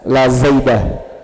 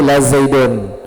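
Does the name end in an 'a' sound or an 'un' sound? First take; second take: a; un. First: The name ends in a short 'a' sound. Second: The name ends in an 'un' sound. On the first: The speaker calls it wrong. "tidak boleh dibaca" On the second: The speaker calls it right.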